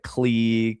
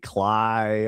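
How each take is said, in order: First: The name is said with an 'ee' vowel. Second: The name is said with an 'eye' vowel. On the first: "I've heard so many people call it like Clee" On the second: "all kinds of shit like that"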